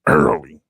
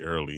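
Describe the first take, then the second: First: The word is said with strong, heavy emphasis. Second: The word is said plainly, without extra emphasis. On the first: The speaker calls it right. "You got you got to put that emphasis on it. He said early" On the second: The speaker calls it wrong. "He didn't say early"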